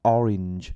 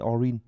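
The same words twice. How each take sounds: First: The final consonant sound is clearly pronounced. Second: The final consonant sound is weak or dropped. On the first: The speaker calls it right. "nghe nó chất hơn hẳn" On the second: The speaker calls it wrong. "các bạn toàn phát âm là orange orange"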